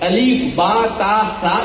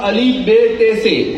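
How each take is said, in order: First: The letter names end in an 'a' vowel. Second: The letter names end in an 'e' vowel. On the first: This is the proper Arabic way of reading. The speaker calls it right. "इस तरह से पढ़ना चाहिए" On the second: This is the old local majhul way of reading. The speaker calls it wrong. "हमको पढ़ाया जाता था अलीफ बे ते से"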